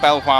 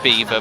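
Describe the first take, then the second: First: The name is said as spelled, Bel-vwar. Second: The name sounds like the word beaver. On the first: This is how the hosts choose to say it. The speaker calls it right. "we don't agree with that, so we're not doing it" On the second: This is how local people say it. The speaker calls it wrong. "if you're from Leicester, you pronounce it Beaver"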